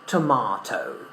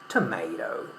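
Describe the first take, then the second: First: It is said in a British accent. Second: It is said in an American accent. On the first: "in British English it's pronounced completely different. We say tomato" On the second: "But in American English, we say tomato"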